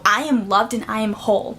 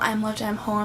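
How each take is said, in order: First: It is said with strong, demanding emotion. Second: It is said flatly, without emotion.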